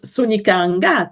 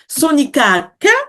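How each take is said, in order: First: The last syllable begins with an ng sound. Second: The last syllable begins with a k sound. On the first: "with a ka or a nga" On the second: "with a ka or a nga"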